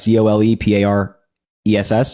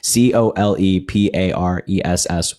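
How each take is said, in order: First: The letters are spelled out at a quicker pace. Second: The letters are spelled out at a slower pace.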